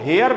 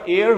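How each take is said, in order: First: The word begins with an h sound. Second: The word begins with a vowel sound. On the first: The speaker calls it wrong. "इसका जो उच्चारण होता है वो हेयर नहीं होता है" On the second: The speaker calls it right. "इसका उच्चारण एयर होता है, जो कि वावल वावल साउंड से शुरू होता है"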